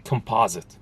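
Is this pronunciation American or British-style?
American. It is said in an American accent. This is how it is said in the US. "Here they say composite"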